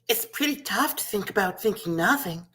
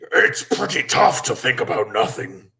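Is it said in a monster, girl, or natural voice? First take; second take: girl; monster. First: It is said in a little girl voice. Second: It is said in a scary monster voice.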